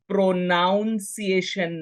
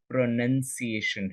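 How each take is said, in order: First: The second syllable sounds like 'noun'. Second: The second syllable sounds like 'nun'. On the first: The speaker calls it wrong. "कुछ लोग इसे प्रोनाउंसिएशन बोलते हैं। See the spelling, प्रोनाउंसिएशन नहीं है" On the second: The speaker calls it right. "प्रोनाउंसिएशन है"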